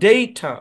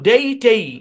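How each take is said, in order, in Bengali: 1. দ্বিতীয় সিলেবলে দুর্বল 'uh' স্বরধ্বনি আছে। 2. দ্বিতীয় সিলেবলে দীর্ঘ 'ay' স্বরধ্বনি আছে। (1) "এই শব্দের উচ্চারণ ডেইটা ... এখানে দিবে শোয়া সাউন্ড" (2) "নিয়ম অনুসারে এই শব্দের উচ্চারণ হওয়ার কথা ছিল ডেই টেই"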